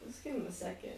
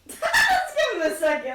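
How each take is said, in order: First: Said in the usual way. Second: Loud laughing repeat of the line. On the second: Real, not acted. Player repeats to the table, laughing loudly. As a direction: laugh through the words.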